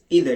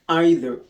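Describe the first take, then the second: First: It is pronounced the American English way. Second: It is pronounced the British English way. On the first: "We pronounce either in the American English" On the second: "we pronounce either in the British English"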